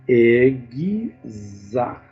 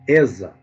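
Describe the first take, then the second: First: The x is sounded as gz. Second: The x is not sounded as gz. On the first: The speaker calls it right. "a pronúncia vai ser isso aqui, ó. Letra E, letra G, letra Z, letra A" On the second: The speaker calls it wrong. "algumas pessoas é, pronunciam como exa"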